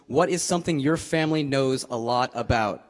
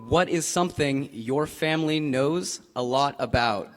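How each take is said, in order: First: It is said at a normal conversational speed. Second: It is said slowly with careful, clear articulation.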